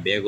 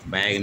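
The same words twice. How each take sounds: First: बैग said as "beg" with a short e; बैग as "beg", the proper way; correct pronunciation. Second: बैग said as "bag" with a flat a; बैग as "bag", the way the book has it; wrong pronunciation. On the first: Teacher corrects the book and says बैग as "beg". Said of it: "बैग होता है". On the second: Teacher reads the book's wrong बैग as "bag". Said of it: "बैग नहीं होता है". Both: Shown as a demonstration.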